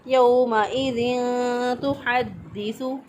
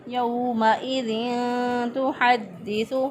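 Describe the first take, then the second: No difference in how they are said.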